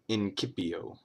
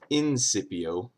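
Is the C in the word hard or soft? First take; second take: hard; soft. First: The C is pronounced as a hard K. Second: The C is pronounced as a soft sound. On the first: The speaker calls it right. "all C's make a K sound" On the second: The speaker calls it wrong. "It's not it's not incipio"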